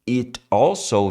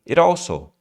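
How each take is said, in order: First: The two words are said separately. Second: The two words are linked together smoothly. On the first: "vamos falar um pouquinho da conexão das palavras"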